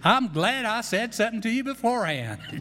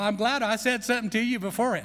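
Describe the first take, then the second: First: It is said in a strong Texas accent. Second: It is said in the speaker's plain accent.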